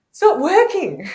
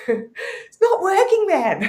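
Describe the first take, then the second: First: High, loud cry of frustration; a hammed-up plea that it isn't working; mock exasperated complaint. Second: High, slow, laughing through the words; laughing complaint. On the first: She complains to the shaman, high and exasperated. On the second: Retold or imitated. She repeats the complaint to the shaman, laughing and drawn out.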